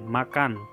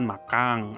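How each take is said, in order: First: The word ends with a clear n sound. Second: The word ends with an ng sound. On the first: The speaker calls it right. "Misalnya makan" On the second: The speaker calls it wrong. "yang bisa kadang mengucapkan makang"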